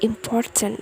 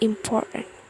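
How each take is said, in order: First: The T sound in the middle is pronounced. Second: The T sound in the middle is dropped. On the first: "not important" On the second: "The native didn't pronounce the T sounds"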